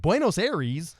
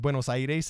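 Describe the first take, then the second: First: It is said with an English pronunciation. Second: It is said with a Spanish pronunciation. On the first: The speaker calls it wrong. "instead of saying" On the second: The speaker calls it right. "once I pronounced the city correctly"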